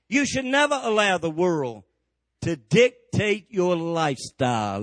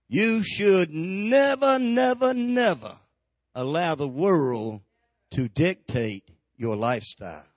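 First: It is said at a normal pace. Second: It is said very slowly.

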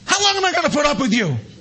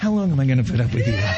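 First: It is said in an irritated, exasperated way. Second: It is said in a soft, gentle way.

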